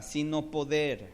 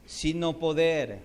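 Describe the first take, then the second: First: Said in the usual way. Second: "Sino poder" slow and louder; emphatic repeat. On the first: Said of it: "repeat, first soft". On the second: Shown as a demonstration. Preacher repeating "Sino poder" for weight. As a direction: land hard on "poder". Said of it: "repeat, louder slower".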